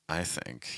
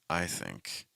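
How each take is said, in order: First: It is said with a low, heavy pitch. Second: It is said with a low, heavy pitch.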